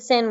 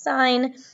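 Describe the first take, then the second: First: It has a short 'i' vowel, like 'sin'. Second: It has a long 'eye' vowel, like 'sign'. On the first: The speaker calls it wrong. "We don't pronounce it sin" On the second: The speaker calls it right. "we're still pronouncing it as sine"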